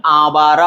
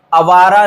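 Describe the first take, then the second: First: आवारा said as "aa-vaara"; long first vowel. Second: आवारा said as "a-vaara"; short first vowel. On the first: Teacher recapping, आवारा with long first aa. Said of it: "आवारा होता है". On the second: Teacher recapping the mistake, आवारा with short a. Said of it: "आवारा नहीं". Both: Shown as a demonstration.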